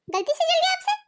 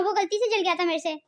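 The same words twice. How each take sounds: First: Higher, incredulous echo; shocked disbelief. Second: Said in the usual way. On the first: Acted. Daughter-in-law echoes sister-in-law's excuse for burnt top, incredulous. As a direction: throw her excuse back in disbelief.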